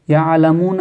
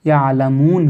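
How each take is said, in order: First: यअलमून said with an added "a", ya'lamoona; full final vowel. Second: यअलमून closed on a vowelless "n"; stopped ending. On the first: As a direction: voice a short "a" after the n of यअलमून. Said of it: "यअलमून कर दीजिए". (यअलमून को "यअलमूना" जैसा बोलकर) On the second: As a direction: end यअलमून on n, cutting the breath. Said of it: "सांस तोड़ेंगे तो". (यअलमून के "न" पर रुककर) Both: Shown as a demonstration.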